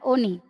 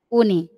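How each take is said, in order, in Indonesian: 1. Kata ini diawali dengan vokal 'o'. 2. Kata ini diawali dengan vokal 'u'. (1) "kalau Parepare mengatakan oni" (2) "Bone yang dijadikan rujukan ya, standar ya"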